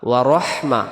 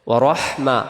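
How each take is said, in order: No difference in how they are said.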